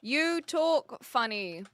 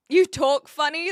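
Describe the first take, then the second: First: Each word drawn out while typing; slow, careful dictated words; slow dictation. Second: Loud, teasing quote of a chat troll; jeering imitation of a chat comment; mock taunt. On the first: Shown as a demonstration. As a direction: read it out slowly as you type. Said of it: "I think that we can do this". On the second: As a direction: fling it like a rude viewer would. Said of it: "that's another one".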